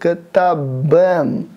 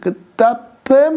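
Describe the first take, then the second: First: The consonant before the ending is a voiced b. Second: The consonant before the ending is a voiceless p. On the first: The speaker calls it right. "будет «катабэм»" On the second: The speaker calls it wrong. "будет «катапэм», не будет"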